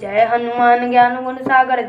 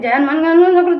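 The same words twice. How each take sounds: First: It is recited slowly, with every word clear. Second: It is rushed so fast the words blur. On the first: The speaker calls it right. "शब्द शब्द आपके शुद्ध होना चाहिए, शुद्ध उच्चारण करिए" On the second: The speaker calls it wrong. "ऐसे भगाने लगते"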